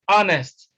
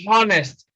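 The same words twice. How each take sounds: First: The word begins with no H sound. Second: The word begins with an audible H sound. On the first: The speaker calls it right. "H is silent in honest" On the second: The speaker calls it wrong. "It's not honest"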